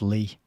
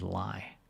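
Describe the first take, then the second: First: The name rhymes with the word key. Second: The name rhymes with the word eye. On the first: The speaker calls it right. "actually, it's pronounced Lee" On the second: The speaker calls it wrong. "whose last name was Lie"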